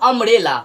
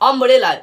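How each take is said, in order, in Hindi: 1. यह शब्द एक छोटे 'uh' स्वर से शुरू होता है। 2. यह शब्द एक छोटे 'uh' स्वर से शुरू होता है।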